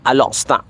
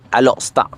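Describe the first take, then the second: First: The name is run together as Alostar. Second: The name is run together as Alostar.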